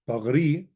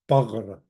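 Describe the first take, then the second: First: The final vowel is pronounced. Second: The final vowel is silent. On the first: "Bagri is my body" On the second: "the sort of old, kind of traditional, kind of dumb pronunciation"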